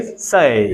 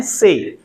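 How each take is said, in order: First: "say" drawn out, gliding from e to i; correct English diphthong. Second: "से" as a plain, unglided vowel; usual Indian pronunciation. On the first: Teacher corrects the class's vowel, correct English diphthong. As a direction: stretch "say" through both vowels, pitch falling. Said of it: "लेकिन वो से थोड़ी होता है". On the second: Teacher shows the class their habit, usual Indian pronunciation. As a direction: keep "से" to one pure vowel. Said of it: "हम तो उसे बोलते हैं से". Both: Shown as a demonstration.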